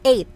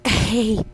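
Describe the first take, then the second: First: The h sound is left out entirely. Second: The h sound is pronounced at the end. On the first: The speaker calls it right. "we pronounce eight" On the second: The speaker calls it wrong. "We don't say eight. So silent H"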